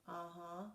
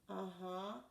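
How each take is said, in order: The two takes are said the same way.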